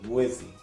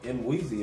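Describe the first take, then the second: First: The first M is blended into the next sound. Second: The first M is sounded as a separate sound. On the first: The speaker calls it right. "how you really supposed to say it" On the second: The speaker calls it wrong. "all this time Mwizi is wrong"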